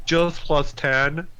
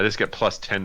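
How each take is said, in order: First: High, drawn-out echo of a boast; mock casual boast. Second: Said in the usual way. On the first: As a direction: stretch it out high, making light of it. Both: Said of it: "I say it like it's nothing".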